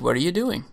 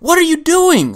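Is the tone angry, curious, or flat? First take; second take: curious; angry. First: It is said in a light, curious tone. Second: It is said in a frustrated, angry tone. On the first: The speaker is simply asking out of interest. "kind of a curious just inquiry" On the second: The speaker is upset with the listener. "Like a frustrated, angry thing"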